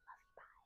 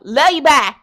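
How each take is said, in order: First: It is said at a normal, quieter volume. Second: It is said loudly.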